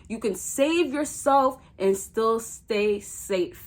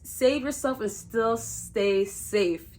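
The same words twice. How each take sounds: First: Slow, deliberate delivery; slow and emphatic; said slower. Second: Slow, careful tongue-twister delivery; deliberately slow. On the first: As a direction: spell it out slowly so it sinks in. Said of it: "Let me say that again, slower". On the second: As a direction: say it slowly, word by word. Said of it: "You gotta say it slow". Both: Shown as a demonstration.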